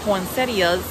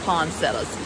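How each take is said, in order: First: It is said closer to how it is spelled. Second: It is said in a regional Southern way. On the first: This is how people elsewhere say it. "other people ... pronounce it as poinsettias, which if you look at the spelling, that is probably the correct pronunciation" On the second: This is how people in one Southern region say it. "in the section of the South that I'm from, they pronounce it as poinsettias"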